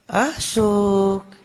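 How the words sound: The name is called in a soft, tender voice.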